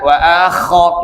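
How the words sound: The kha sound is exaggerated like snoring. The speaker calls it wrong. "Jangan sampai ngorok, kalau bisa wa akho, enggak usah"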